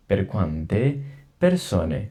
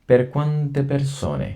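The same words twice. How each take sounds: First: Per quante persone at ordinary speed; just say it naturally; normal repeat. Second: Per quante persone drawn out very slowly and higher; slow drawn-out reading. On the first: Teacher repeats the question normally for students. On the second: Teacher stretches the question very slowly for learners. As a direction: drag each syllable for the class. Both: Shown as a demonstration. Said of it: "এটা আমি দুইবার করে পড়বো".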